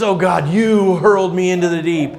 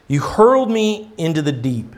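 First: You stressed, blaming, falling. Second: Said in the usual way. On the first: Shown as a demonstration. Preacher mocking Jonah's blaming prayer, stress on you. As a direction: point the finger with you. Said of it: "he's not taking any responsibility at all". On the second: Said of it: "I have to kind of question his wording".

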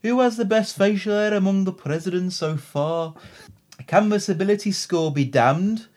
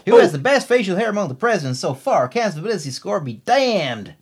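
First: Brummie accent slipping into Liverpudlian; Birmingham accent attempt. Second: Exaggerated American accent, swooping pitch; Louisiana accent attempt. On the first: Co-host reading listener's question in muddled Birmingham-Liverpool accent. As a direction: try Birmingham, drift toward Scouse. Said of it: "That's all more Liverpudlian". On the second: Co-host reading listener's question in attempted Louisiana accent. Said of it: "No, same accent as before". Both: Shown as a demonstration.

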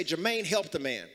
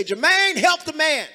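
First: Said in the usual way. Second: High, loud holler over club noise; club shout. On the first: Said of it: "Y'all didn't say it right". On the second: Shown as a demonstration. Preacher coaching congregation to shout for Jermaine, club holler. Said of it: "Say it like you out in the club".

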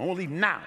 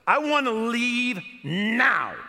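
First: Said in the usual way. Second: Slow, loud, high, every word pressed; insistent demand. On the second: Retold or imitated. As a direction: demand it, spelling it out. Demanding to leave.

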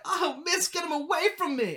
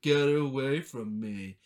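First: Put-on high pleading child voice, much higher; pleading girl. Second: Slow, lower mocking imitation; mock her back, drawn out and lower; mocking echo. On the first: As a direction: beg the teacher in a high girl's voice. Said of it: "And she's like". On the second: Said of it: "he starts mocking her".

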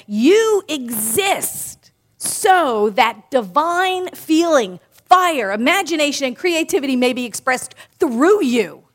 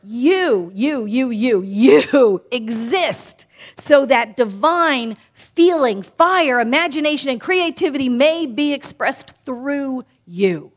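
First: Slow, solemn reading of a spiritual quote; solemn quotation. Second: Slower still, with a laugh at the start, then rising fervour on fire; solemn repeat. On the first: Minister quoting Ernest Holmes to the congregation, slow and solemn. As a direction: read it slowly and reverently, like scripture. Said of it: "Ernest Holmes, in this thing called life, said". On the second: Minister repeating the quote on request, slow and fervent. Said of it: "You want me to say that again?". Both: Acted.

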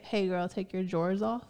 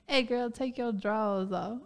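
First: "drawers" said with the r, like "jorz"; standard pronunciation. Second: "drawers" said country-style as "drawls"; "your" as "yo", "drawers" as "draws"; country pronunciation. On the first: Offering the other way to say it, "drawers" as "jorz". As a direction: sound the r in "your" and "drawers". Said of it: "But you can also say". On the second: Testing the country word on a girl, "drawers" as "draws". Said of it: "Draws would be more country". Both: Shown as a demonstration.

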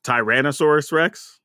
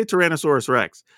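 First: "Tyrannosaurus Rex" opening with TIE; viewer's preferred pronunciation. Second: "Tyrannosaurus Rex" opening with a short tuh; own usual pronunciation. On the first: Retold or imitated. Quoting the viewer's correction, "Tyrannosaurus Rex" with a long i. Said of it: "I can't believe you just mispronounce". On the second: Shown as a demonstration. Asking people how they say it, "Tyrannosaurus Rex" with a reduced first vowel. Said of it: "how do you say Tyrannosaurus Rex".

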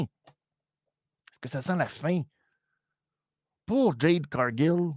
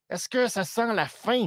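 First: Lente et appuyée, façon bande-annonce; étire chaque mot pour le suspense; question dramatique. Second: Said in the usual way. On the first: Real, not acted. (question lente et théâtrale)

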